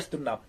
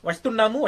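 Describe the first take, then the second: First: The word ends in 'm' without 'mu'. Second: The word ends with a full 'mu' syllable. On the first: "ഒരു short form ഉണ്ട്. അതാണ് വസ്തുണ്ണാം" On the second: "വസ്തുണ്ണാമു എന്നതിന്റെ മു"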